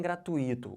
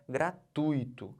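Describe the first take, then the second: First: Gratuito as gra-tu-Í-to; wrong stress. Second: Gratuito slowly as gra-TUI-to; deliberate gra... TUI-to; correct stress. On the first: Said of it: "Então não falem". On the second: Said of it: "O certo é". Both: Shown as a demonstration.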